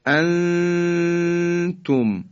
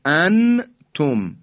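First: انتم with the نون concealed in a long nasal hum, very slow; انتم chanted slowly, nun hidden, nasal; ikhfa demo. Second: انتم with a clear, fully pronounced نون, no nasal hold; انتم spoken crisply with izhar; wrong clear nun. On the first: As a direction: recite انتم with a held nasal ghunna before the ت. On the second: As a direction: say انتم plainly with the nun sounded. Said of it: "ما نمیگیم انتم". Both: Shown as a demonstration.

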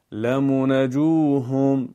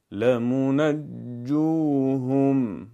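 First: لمنجوهم chanted with a single weak n; wrong, no doubling. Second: لمنجوهم chanted slowly with a firm doubled n; correct doubled letter. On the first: Teacher shows the mistaken reading, weak doubling. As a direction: let the n in لمنجوهم go slack and unstressed. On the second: Teacher models the correct reading, slow firm chant. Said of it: "اگر بخوایم اشتباه تلفظ کنیم". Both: Shown as a demonstration.

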